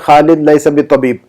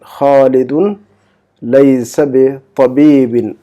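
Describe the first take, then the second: First: The word-final case endings are left off. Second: The word-final case endings are clearly pronounced. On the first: The speaker calls it wrong. "ऐसा मत कहिए" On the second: The speaker calls it right. "इसका एराब जाहिर कीजिए बोलने के वक्त"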